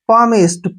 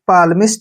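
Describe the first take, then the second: First: The L sound is left out. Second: The L sound is clearly pronounced. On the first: The speaker calls it right. "एल वहां पर silent रहता है" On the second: The speaker calls it wrong. "गलत तरीके से pronunciation करता है"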